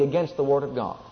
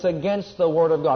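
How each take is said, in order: First: It is said at normal speaking volume. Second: It is said as loudly as possible.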